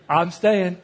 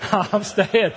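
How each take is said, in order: First: Louder laughing vow. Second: Higher, louder laughing repeat; giggling firm repeat; laughing harder. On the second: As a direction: laugh through the promise. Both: Real, not acted.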